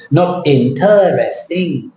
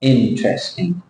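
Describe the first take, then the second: First: "interesting" slowly with an added "er" syllable, four syllables; mock the learner's four-syllable "interesting"; Thai-style wrong take. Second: "Interesting" with three syllables, "trest" tight; the model "Interesting" without the extra syllable; correct model. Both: Shown as a demonstration. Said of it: "That's Thai style".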